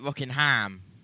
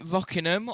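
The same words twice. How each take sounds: First: The name is said with an American pronunciation. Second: The name is said with a British pronunciation. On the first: "go the American way and call it" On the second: "us Brits are in a little bit of a scenario here"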